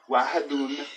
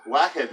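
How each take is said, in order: First: The word ends with a short '-un' case ending. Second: The word ends without any short vowel ending. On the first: It is the formal reading. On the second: It is the less formal reading.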